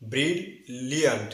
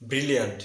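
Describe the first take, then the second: First: ব্রিল, pause, লিয়ান্ট with two Ls; syllable-split pronunciation. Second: ব্রিলিয়ান্ট in one go with a single L; wrong pronunciation. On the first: Teacher modelling the correct word, split bril-liant. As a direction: break after ব্রিল, restart L on লিয়ান্ট. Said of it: "দুইটি মিলে সঠিক উচ্চারণ হবে". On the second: Teacher giving the counterexample, short single-L mispronunciation. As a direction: run ব্রিলিয়ান্ট together as bri-liant. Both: Shown as a demonstration.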